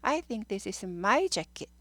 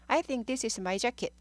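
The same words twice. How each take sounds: First: The word 'my' is said with strong stress. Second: The word 'my' carries no special stress. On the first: "my를 강조해야 돼요" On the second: "대문자 아니었으면 I think this is my jacket 이렇게 돼요"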